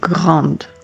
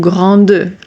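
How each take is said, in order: First: It ends on the D sound, final vowel silent. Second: A vowel sound is voiced after the final D. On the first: The speaker calls it right. "I'm saying grande" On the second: The speaker calls it wrong. "I'm not saying grande"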